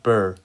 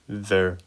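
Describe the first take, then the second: First: The syllable begins with a b sound. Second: The syllable begins with a buzzing v sound. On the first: The speaker calls it wrong. "not burr" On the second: The speaker calls it right. "you say v"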